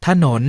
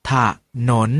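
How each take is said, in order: First: Said in the usual way. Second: ถะหนน with a short half ถะ then หนน; pronounced ถะหนน. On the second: Shown as a demonstration. Teacher models the reading ถะหนน for students. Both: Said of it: "ออกเสียงว่า".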